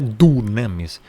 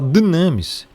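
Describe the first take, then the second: First: The first vowel is a plain back u. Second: The first vowel is a rounded front vowel. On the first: The speaker calls it wrong. "não é dunamis" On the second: The speaker calls it right. "Então você vai falar dynamis"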